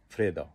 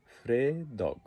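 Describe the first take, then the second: First: ফ্রেদা with a clipped -দা ending and no g; the casual everyday ফ্রেদা, short and falling; colloquial short form. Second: ফ্রেদগ with the full -দগ ending; full written form. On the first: Teacher to learners, giving the spoken ফ্রেদা. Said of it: "সংক্ষেপে বলি ফ্রেদা". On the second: Teacher to learners, giving the written ফ্রেদগ. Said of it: "লিখতে গেলে এটাকে বলতে হবে ফ্রেদগ". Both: Shown as a demonstration.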